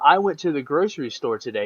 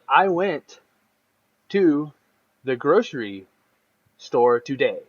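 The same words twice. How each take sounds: First: It is said smoothly, without pauses. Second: It is broken up by many pauses.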